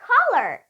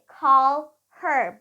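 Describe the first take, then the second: First: The h sound in 'her' is dropped entirely. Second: The h sound in 'her' is clearly pronounced. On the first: "instead they would say caller" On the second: "They won't say call her"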